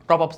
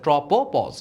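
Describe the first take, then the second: First: The word is said as tropops. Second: The word is said as tropopause. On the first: The speaker calls it wrong. "ট্রপপস না" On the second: The speaker calls it right. "এটা হচ্ছে ট্রপোপজ"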